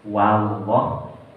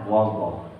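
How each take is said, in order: First: The first vowel is an open a sound. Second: The first vowel is a rounded o sound. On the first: The speaker calls it right. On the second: The speaker calls it wrong. "Kadang berubah menjadi wo"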